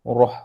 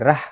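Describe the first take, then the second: First: The vowel sounds thick and rounded, like o. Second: The vowel sounds open and front, like a. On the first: The speaker calls it right. "Sepatutnya roh" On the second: The speaker calls it wrong. "Bukan rah"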